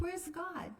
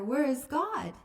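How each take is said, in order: First: It is said quietly and calmly. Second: It is said a little louder.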